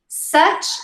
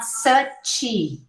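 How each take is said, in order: First: It ends cleanly on the final consonant. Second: An extra vowel follows the final consonant. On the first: The speaker calls it right. "You say one syllable" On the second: The speaker calls it wrong. "and not suchy"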